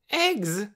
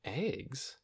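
First: Put-on high, eager child's cry; excited cry. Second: Soft questioning echo, slightly raised; puzzled echo. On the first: Torin bursts in on talk of breakfast, excited cry. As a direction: pipe up loudly, thrilled. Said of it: "he cried". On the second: Lena doesn't know the word, puzzled echo. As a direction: quietly wonder at EGGS, rising at the end. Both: A narrator's reading.

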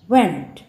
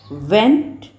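First: वेंट with a hard retroflex T, falling; वेंट said firmly, like went; teacher demo of वेंट. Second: वेंट said lightly, like vent; teacher demo of वेंट. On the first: Teacher showing the second of two वेंट. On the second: Teacher showing the first of two वेंट. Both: Shown as a demonstration. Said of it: "ये दोनों का देखिए pronunciation अलग अलग है".

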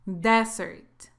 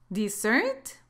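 First: "Desert" as DEZ-ert, falling; closing half of a contrast, "Desert" stressed up front; single-S pronunciation. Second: "Dessert" as di-ZERT with a rising tune; first half of a contrast, "Dessert" rising on its stressed ending; double-S pronunciation. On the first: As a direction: hit the first syllable of "Desert", then drop. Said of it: "se pronuncia así". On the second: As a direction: stress the second syllable of "Dessert", lifting at the end. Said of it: "la pronunciación es así". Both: Shown as a demonstration.

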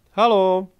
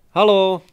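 First: Loud, higher call into the forest. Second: Much louder, higher second call; calling again. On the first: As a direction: shout halo to find the others. (hlasité volání do lesa) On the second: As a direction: halo shouted harder, more urgent. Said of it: "zavolala podruhé". (ještě hlasitější volání) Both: A narrator's reading.

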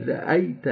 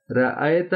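First: رأیت as "ra-ai-ta", ya fully sounded; clear Arabic ya. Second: رأیت with flattened "ae" for "ai"; wrong Urdu vowel. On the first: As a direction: glide into "ee" in رأیت. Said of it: "یا کو واضح پڑھنا". (رأیت یا کو واضح کر کے) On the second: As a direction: say رأیت as "ra-aet", no ya glide. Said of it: "رأیت نہیں". (رأیت یا کو مجہول کر کے) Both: Shown as a demonstration.

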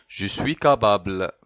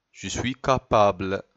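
The two takes are said the same way.

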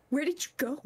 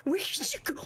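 First: Said in the usual way. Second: High hushed whisper; eerie whispered calling; creepy whisper. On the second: Pretend. Whispered search, then normal take.

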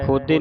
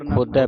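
First: ਖੋਦੇ with a closed "ay" ending; wrong vowel ending. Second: ਖੋਦੈ with an open "ai" ending; double-lavan vowel. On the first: Teacher shows congregation the reading to avoid, ਖੋਦੇ with closed e. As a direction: end ਖੋਦੇ on a narrow single-lan e. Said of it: "ਖੋਦੇ ਨਹੀਂ ਪੜ੍ਹਨਾ". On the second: Teacher corrects congregation's reading, ਖੋਦੈ with open ai. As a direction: end ਖੋਦੈ on a wide ai, not e. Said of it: "ਖੋਦੈ ਪੜ੍ਹਨਾ ਹੈ". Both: Shown as a demonstration.

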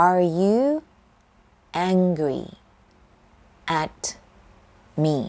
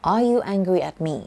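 First: Word by word. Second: Whole question, flowing. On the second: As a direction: say Are you angry at me? in one smooth line. (พูดต่อกันเป็นประโยคเดียว) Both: Shown as a demonstration. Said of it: "คุณโกรธฉันใช่ไหม".

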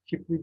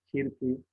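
First: "Kirpi" with p before r, kipri; swapped r and p in "Kirpi"; misspelt form. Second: Said in the usual way. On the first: Shown as a demonstration. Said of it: "hatalı yazılan sözcüklerin". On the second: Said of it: "doğru yazılışlarını".

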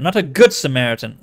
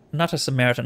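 First: "good" punched louder than the rest; stress on good. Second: Said in the usual way. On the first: Shown as a demonstration. Reader correcting the expression, "good" punched louder. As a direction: hit the word "good" hard. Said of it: "The expression".

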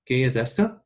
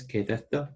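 First: "esto" with a clear s, Latin American style; ¿Qué es esto? said with seseo; Latin American Spanish. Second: "esto" said as "etho", Castilian th; ¿Qué es esto? with a Spain lisp on esto; Spain Spanish accent. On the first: Teacher models the Latin American version, Latin American Spanish accent. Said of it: "in, um, Latin American Spanish". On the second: Teacher models the Spain version, Castilian Spanish accent. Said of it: "or in Spain Spanish". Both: Shown as a demonstration.

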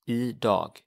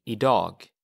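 First: "Idag" repeated slowly, ee-dahg. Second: "idag" said ee-dahg, Swedish style. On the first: Teacher repeating "Idag" for the class, carefully. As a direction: model "Idag" again, carefully. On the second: Teacher saying "idag" to a student, clearly. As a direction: say "idag" with a long open ah. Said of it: "you would say". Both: Shown as a demonstration.

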